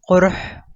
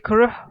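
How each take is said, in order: First: The word begins with a deeper throat Q sound. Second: The word begins with a plain K sound. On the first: The speaker calls it right. "but the word is quruh" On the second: The speaker calls it wrong. "You can say kuruh"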